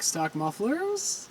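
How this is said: The voice rises at the end, like a question.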